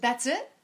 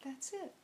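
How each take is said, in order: First: "That's it?" lifted into a rising, louder question; "That's it?" asked in disbelief, up at the end; surprised question. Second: "That's it." said much softer, settled and gentle; "That's it." answered softly, like a calm reassurance; calm confirmation. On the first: She asks the seatmate in disbelief, rising. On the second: The calm seatmate gently confirms it, soft and settled. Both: Retold or imitated.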